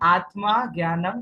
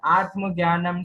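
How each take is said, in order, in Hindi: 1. पहला शब्द पूरे अंतिम स्वर के साथ खत्म होता है। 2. पहला शब्द अपने अंतिम स्वर के बिना खत्म होता है। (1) "मूल कलश में आत्मा शब्द है पूरा" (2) "हम बोलते बोलते बार बार आत्म बोल देते हैं"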